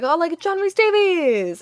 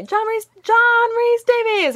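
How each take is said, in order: First: Slow, higher mock announcer intro; the emcee's first call to the guest; emcee introduction. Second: Much higher, louder, slow call of the name. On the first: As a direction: announce the guest like a polite host. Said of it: "was like". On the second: Retold or imitated. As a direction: call his name so he hears this time. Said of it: "He didn't, he didn't hear me".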